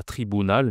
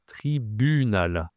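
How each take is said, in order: First: "tribunal" with an OU sound instead of French U; wrong vowel in tribunal. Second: "tribunal" slowly, with a rounded French U. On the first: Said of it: "c'est un U. Pas tribunal". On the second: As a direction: draw out "tribunal" with U as in "tu". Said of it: "c'est un U". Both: Shown as a demonstration.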